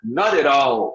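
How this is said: American accent, the t's sound like soft r's. "nos Estados Unidos"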